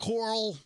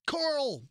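First: "Coral" said KOR-al, two syllables; Coral as Carl. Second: "Coral" high, laughing through it. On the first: Cohost savouring the "Coral" pronunciation. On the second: Cohost laughing at how Rick says "Coral". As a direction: giggle out "Coral". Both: Shown as a demonstration. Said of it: "I like that".

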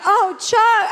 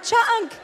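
First: High, loud call to the dog. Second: High call breaking into a laugh. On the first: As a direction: call out across the cabin. Calling her drugged dog. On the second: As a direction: call him again, half laughing. Calling her drugged dog again. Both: Retold or imitated.

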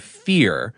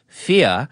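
First: Said in the usual way. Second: "fia" with no R, ending on an open ah; "fia" as Roosevelt said it, no final R; dropped R. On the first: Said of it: "instead of". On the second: Shown as a demonstration. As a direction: say "fia" in an old New York way, R gone. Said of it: "Roosevelt said".

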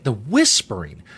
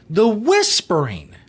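First: Said in the usual way. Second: "the whispering" drawn out slow and higher; mocking emphasis. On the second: Shown as a demonstration. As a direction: stretch "the whispering" with disbelief, slow.

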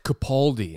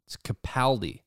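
First: "Capaldi" with an "aw" as in "Capawldi"; wrong Capaldi. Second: "Capaldi" with a short "a" as in "cap-AL-di"; right Capaldi. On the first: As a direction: say "Capaldi" the way people get it wrong, with a broad "aw". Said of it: "people are like". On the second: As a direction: correct them with a flat "a" in "Capaldi". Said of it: "and I'm like, "No, it's". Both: Retold or imitated.

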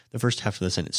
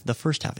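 First: Said in the usual way. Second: "first" lifted high as a correction; correcting stress. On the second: Real, not acted. Teacher corrects himself, rising high on "first". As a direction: lean on "first" to fix the mistake. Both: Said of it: "excuse me".

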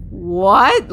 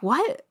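First: Loud, indignant what; a louder angry what with a falling edge. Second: High, rising incredulous what; a short, baffled what, pitched up; disbelieving what. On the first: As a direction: fire it back in outrage. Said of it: "Like, I was so angry". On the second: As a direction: ask it in stunned disbelief. Hearing she must listen to a sermon. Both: Retold or imitated.

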